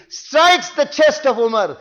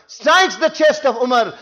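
The two takes are said the same way.

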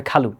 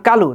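First: 'খালু' with a puff of air after k; native-English style kh in 'খালু'; aspirated k. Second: 'কালু' with an unaspirated k; no puff of air on 'কালু'; plain k. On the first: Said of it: "Obviously আপনাকে বলতে হবে খালু". ('খালু' মহাপ্রাণ খ দিয়ে) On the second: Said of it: "ইংলিশে সব খ". ('কালু' অল্পপ্রাণ ক দিয়ে) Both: Shown as a demonstration.

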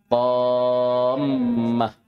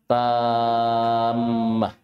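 First: "Tammah" with heavy, backed T and very long dark vowel; emphatic Arabic ta. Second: "Tammah" with plain dental T and very long open a; light Arabic ta. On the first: Teacher contrasts letters for students, long "Tammah" with heavy emphatic ط. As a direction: stretch "Tammah" from emphatic ط, like "Toommah", holding the m. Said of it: "Huna harf ta fi awalil kalima". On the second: Teacher contrasts letters for students, long "Tammah" with light ت. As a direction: stretch "Tammah" from light ت, holding the m. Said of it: "istami'u qabla an taqra'u".

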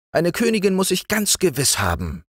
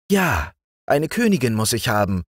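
First: Much higher and more insistent frog prince; high squeaky frog prince insisting; frog prince, even more excited. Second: Excited frog prince, raised voice; the frog prince, eager about his plan; a pompous little frog king-to-be. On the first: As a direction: climb higher as he repeats himself. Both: Acted.

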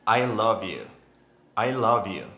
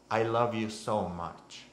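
First: Loud, clear I love you; said aloud. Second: Tender. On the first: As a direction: say it out loud, projecting. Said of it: "Digan la frase en voz alta". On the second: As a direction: say it slowly, as if to a partner. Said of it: "Imagínense a su novia". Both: Shown as a demonstration.

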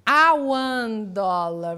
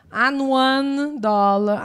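First: "A one dollar" dito devagar, com "A" curto antes do som de "one"; pronúncia correta. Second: "An one dollar" devagar e mais alto, mostrando o "an" errado; pronúncia errada. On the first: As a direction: diga "A one dollar" bem devagar, como modelo certo. (professora mostrando o jeito certo: "A one dollar" pausado) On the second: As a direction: exagere o "An" de "An one dollar" como exemplo do erro. (professora imitando o erro do aluno: "An one dollar" arrastado) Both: Shown as a demonstration. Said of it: "Você não fala an one".

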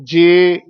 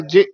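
First: ਜੇ with a long e; with lan. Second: ਜੇ clipped short towards ji; with sihari. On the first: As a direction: hold the vowel of ਜੇ as jay. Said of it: "ਲਾਂ ਦੇ ਨਾਲ ਬੋਲਣਾ". (ਜੇ ਲਾਂ ਨਾਲ) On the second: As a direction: wrongly shorten the vowel of ਜੇ. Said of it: "ਸਿਹਾਰੀ ਨਾਲ ਜੇ ਨਹੀਂ". (ਜੇ ਸਿਹਾਰੀ ਨਾਲ) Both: Shown as a demonstration.

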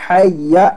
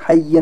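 First: "हय्या" with a held, pressed yy; firm doubled y. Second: "हय्या" said quickly with a light, unheld y; no pressure on the y of "हय्या"; unstressed y. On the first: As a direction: lean hard on the y of "हय्या", then release. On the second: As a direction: slide through "हय्या" as the wrong, slack reading. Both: Shown as a demonstration. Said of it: "हय्या नहीं पढ़ना है".

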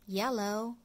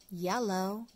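The two takes are said the same way.

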